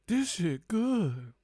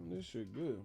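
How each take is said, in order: First: High, slow exaggerated savoring; drawn-out relish over a drink. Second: Said in the usual way. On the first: Real, not acted.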